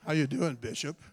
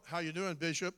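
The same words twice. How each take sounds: First: Low, smooth radio-DJ croon. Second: Smooth, lower, a hint of radio DJ; a light smooth DJ greeting to the bishop. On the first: Retold or imitated. Pastors fawning over the bishop in a low DJ voice. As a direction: croon it like a late-night DJ. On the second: Pastors greeting the bishop in a lightly smooth DJ voice. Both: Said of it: "they use that D J voice".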